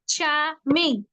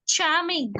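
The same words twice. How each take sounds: First: "charming" split in two, char, pause, ming; syllable by syllable. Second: Said in the usual way. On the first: Shown as a demonstration. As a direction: break "charming" into two clear beats. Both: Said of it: "two syllables".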